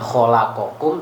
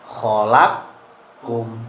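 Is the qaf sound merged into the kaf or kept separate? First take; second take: separate; merged. First: The qaf is said separately with its vowel. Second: The qaf is merged into the following kaf. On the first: The speaker calls it wrong. "bukan khalaqakum" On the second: The speaker calls it right. "tapi khalaqkum"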